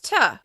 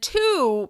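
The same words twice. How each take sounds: First: The word has a weak, reduced vowel. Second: The word has its full vowel.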